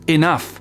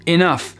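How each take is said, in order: No difference in how they are said.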